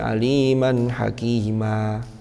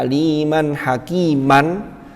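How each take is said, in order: First: The last word ends in a normally long vowel. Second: The last word ends with an n sound. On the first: This is the form used when stopping. "diganti menjadi panjang seperti panjangnya matobi'i" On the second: This is the original form when reading on. "aslinya aliman hakiman"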